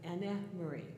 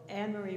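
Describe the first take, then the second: First: The final E of Anne is sounded. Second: The final E of Anne is silent. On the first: This is the German way she said it herself. "The E is pronounced E" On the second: This is the usual English way of saying it. "it's usually Anne Marie"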